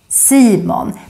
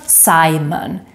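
First: The name is said with Swedish vowels. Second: The name is said with English-style vowels. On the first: The speaker calls it right. "That's how we say the name in Swedish" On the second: The speaker calls it wrong. "not Simon"

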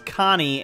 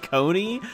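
First: The first vowel is short, as in 'con'. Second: The first vowel is long, as in 'cone'. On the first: The speaker calls it right. "she just said her name was Connie" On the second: The speaker calls it wrong. "you then go and pronounce it Coney"

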